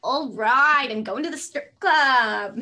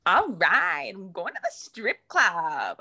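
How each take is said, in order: First: Very loud, slow Linda whoop; Linda impression. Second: Linda impression. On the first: Second friend trying Linda's strip club line. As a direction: belt it out like Linda. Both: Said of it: "Linda from Bob's Burgers".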